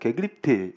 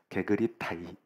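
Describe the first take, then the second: First: The word sounds like a native Greek pronunciation. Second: The word sounds like a simplified Korean-style reading. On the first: "네이티브 발음을 들었는데 게그리트 이러더라고요" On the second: "그냥 게그립타이 이렇게 하기로 했어요"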